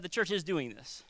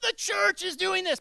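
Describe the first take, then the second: First: Said in the usual way. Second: Mock finger-wagging preacher, pitched much higher; judgy preacher. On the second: Shown as a demonstration. Pastor mocking a judgy preacher, high scolding tone. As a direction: sneer it like a browbeater on a soapbox. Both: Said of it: "I'm not gonna be like".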